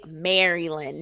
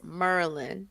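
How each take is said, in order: First: All syllables are said in full. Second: The word is squeezed into two syllables. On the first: It sounds like an outsider saying it. The speaker calls it wrong. "don't say Maryland" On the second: It sounds like a local saying it. The speaker calls it right. "it's Merlin. You got to say it like you from here"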